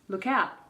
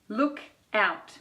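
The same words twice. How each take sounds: First: The two words are joined into one. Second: The two words are said separately.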